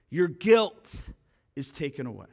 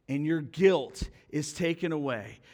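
First: Emphatic "Your guilt", then a hushed "is taken away"; stress on guilt. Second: Said in the usual way. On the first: Shown as a demonstration. Preacher repeats the verse, emphasised.

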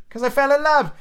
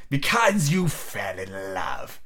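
First: High, eager answer; Scrooge's nephew, ardent. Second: Low, very slow scornful echo; growling Scrooge. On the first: Acted. Nephew defending his marriage to Scrooge, high eager voice. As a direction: blurt it out, pitched way up. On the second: A narrator's reading. Scrooge mocking his nephew's love, slow low growl. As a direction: drag each word out in a low growl. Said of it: "growled Scrooge".

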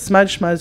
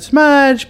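First: Said in the usual way. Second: Smudge jumps much higher and louder; emphatic smudge. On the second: Shown as a demonstration. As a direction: punch the last smudge. Repeated word pushed out.

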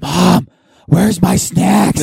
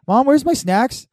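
First: Put-on loud slow kid yell, higher; yelling across the room. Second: Put-on high whiny little kid voice. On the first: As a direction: shout it slowly across the theater. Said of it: "movie voice". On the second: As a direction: ask it like a needy kid. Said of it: "everyone's talking".

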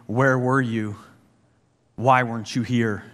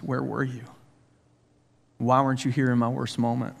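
First: Accusatory angry. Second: Tearful sobbing. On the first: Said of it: "an accusatory, angry". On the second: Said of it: "through sobbing tears". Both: Retold or imitated.

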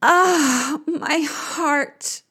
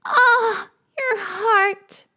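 First: Sighing. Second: Very high wailing sigh; echoed sigh. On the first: Queen of the underworld lamenting, sighing high. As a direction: sigh it out in sorrow. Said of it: "Ereshkigal sighs". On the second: Creatures echoing the queen's heartache, sighing very high. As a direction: sigh back in high lament. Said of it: "They sigh". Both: Acted.

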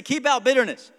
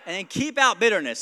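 First: Louder call-out. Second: Said in the usual way. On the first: Shown as a demonstration. Pastor leading the church in a louder repeat. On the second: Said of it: "So somebody say".

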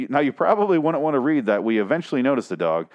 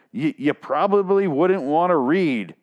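First: Said in the usual way. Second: Slow, sarcastic read with "probably" leaned on; slowly quoting "you probably wouldn't wanna read" with scorn; mocking stress on probably. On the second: Shown as a demonstration. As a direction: drag out "probably" to mock the writer. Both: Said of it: "but you fucking wrote it".

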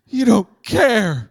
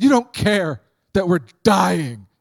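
First: Loud, high, very slow drawn-out whine; milk the despair like Peter; melodramatic whine. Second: Loud, high, slow melodramatic wail. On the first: Peter accusing Jesus in the storm, melodramatic drawn-out whine. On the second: Disciples accusing sleeping Jesus, melodramatic loud wail. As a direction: ham up the panic. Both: Retold or imitated.

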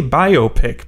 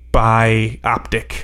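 First: "biopic" as BIO-pic; preferred pronunciation. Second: "bioptic" as bi-OP-tic; rejected pronunciation. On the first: Co-host defending his choice, "biopic" as BY-oh-pick. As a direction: say "biopic" as BY-oh-pick, like biographical picture. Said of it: "I say biopic because". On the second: Co-host showing the version he rejects, "bioptic" as by-OP-tick. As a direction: say "bioptic" like optic, stress on OP. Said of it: "rather than a". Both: Shown as a demonstration.

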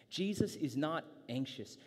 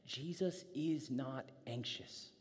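First: "Jesus" lifted and punched, the rest firm; restated with weight on "Jesus"; stress on JESUS. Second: Slow, softened line, lingering on IS; a calm, slow reassurance; slow and soft. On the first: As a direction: repeat it at full voice, hitting "Jesus". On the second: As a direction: let "Jesus is not anxious" sink in slowly and softly. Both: Shown as a demonstration.

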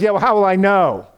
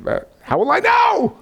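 First: Lightly voiced Abraham pushing for proof; mild raised doubtful ask. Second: High pleading, much higher and strained; mock-panicked Abraham crying out for proof; hammed-up high anxious squeak. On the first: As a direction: voice of Abraham, a bit raised and higher, unsure. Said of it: "Abraham says". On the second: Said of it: "he said".

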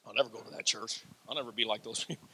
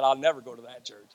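First: Soft, low mock of a stubborn refuser; mocking quote. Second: Said in the usual way. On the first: Preacher mimics people who refuse his church, in a soft low mocking voice. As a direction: mutter it like someone who swears they'll never come. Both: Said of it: "people that said".

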